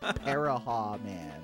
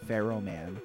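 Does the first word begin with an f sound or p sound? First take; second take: p sound; f sound. First: The first word begins with a p sound. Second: The first word begins with an f sound. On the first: The speaker calls it wrong. "as a kid, I pronounced it as Paraha Man" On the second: The speaker calls it right. "It is Pharaoh Man from Mega Man"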